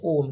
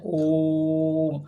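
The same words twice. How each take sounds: First: Said in the usual way. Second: ओम with the o held many beats; drawn-out pluta vowel. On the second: Shown as a demonstration. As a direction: stretch the vowel of ओम long, chant-like. (ओम को लंबा खींचकर प्लुत स्वर में) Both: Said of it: "उच्चारण में कई गुना समय लगता है".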